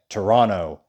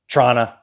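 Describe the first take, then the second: First: The word is squeezed into about two syllables. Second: The word is clipped very short, like 'Trana'. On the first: The speaker calls it right. "that's how you say it" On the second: The speaker calls it wrong. "or Trana"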